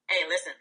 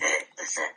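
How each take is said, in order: First: It is said in his normal voice. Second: It is said in a Cookie Monster voice.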